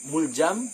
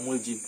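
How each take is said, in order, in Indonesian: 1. Suku kata kedua memiliki vokal 'a'. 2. Suku kata kedua memiliki vokal 'i'. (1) "bisa dibaca Muljam dengan fathah" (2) "bisa juga dibaca dengan kasrah Muljim"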